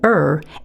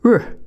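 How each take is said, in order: First: The R sound is drawn out like a vowel. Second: The R sound is short with a clipped schwa. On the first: The speaker calls it wrong. "we want to avoid saying er" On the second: The speaker calls it right. "say r, keeping that schwa clipped"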